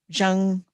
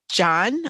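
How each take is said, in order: First: The word ends with an ng sound. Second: The word ends with an n sound. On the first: The speaker calls it right. "somebody telling me Kim Jong Un" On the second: The speaker calls it wrong. "I'm sorry I pronounced it John"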